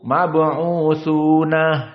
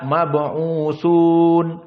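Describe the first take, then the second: First: The word ends with an added h sound. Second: The word ends on a plain n sound. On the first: This is the reading of a single reciter. "Qiraah Yaqub mab'utsuna dengan ha as-saktah" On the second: This is the reading of the majority of reciters. "semua jumhur hanya membaca"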